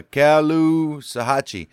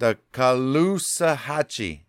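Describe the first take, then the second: First: Slow first try at Caloosahatchee, opening with CAL as in California; unsure pronunciation. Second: Slow, careful Caloosahatchee with a light first syllable, ca-LOO-sa-HATCH-ee; corrected pronunciation. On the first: Reader guessing at a Florida river's name, Caloosahatchee said slowly with an opening CAL. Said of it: "I don't know". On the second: Reader corrected by co-host, Caloosahatchee said slowly as ca-LOO-sa-HATCH-ee. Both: Real, not acted.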